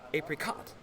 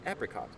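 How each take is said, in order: First: The stress is on a later syllable. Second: The stress is on the first syllable. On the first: The speaker calls it wrong. "She was always saying it like that" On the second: The speaker calls it right. "the emphasis should be on the first syllable"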